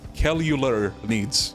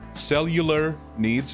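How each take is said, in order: First: The word is pronounced in a deliberately mangled way. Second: The word is said with a tentative attempt. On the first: "let me butcher it even more" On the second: "I'm just gonna go with that"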